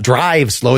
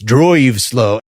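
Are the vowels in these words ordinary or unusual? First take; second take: ordinary; unusual. First: The vowels are pronounced in the ordinary way. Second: A vowel is swapped for an unusual sound. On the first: "It's not" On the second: "your creative pronunciation"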